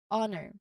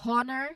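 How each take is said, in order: First: The word starts with a vowel, no H. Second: The word starts with an audible H sound. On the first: The speaker calls it right. "but we say honor" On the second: The speaker calls it wrong. "we did not say ho- um, honor"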